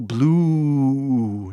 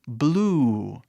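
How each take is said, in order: First: The vowel is stretched out very long. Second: The vowel is stretched a little longer. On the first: The speaker calls it wrong. "não precisa ser grande assim" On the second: The speaker calls it right. "esticando quase o som"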